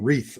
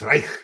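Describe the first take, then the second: First: The surname is said in an American way. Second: The surname is said in a German way. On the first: The speaker calls it wrong. "I was saying Reith all the time" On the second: The speaker calls it right. "But it's Reich"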